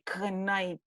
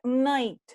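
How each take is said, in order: First: The word begins with a K sound. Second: The word begins with an N sound. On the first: The speaker calls it wrong. "but you don't say K night" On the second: The speaker calls it right. "It's a night"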